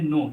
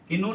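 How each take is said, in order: First: The k sound is silent. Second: The k sound is pronounced. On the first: The speaker calls it right. "पढ़ेंगे नो" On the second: The speaker calls it wrong. "कि नो नहीं पढ़ेंगे"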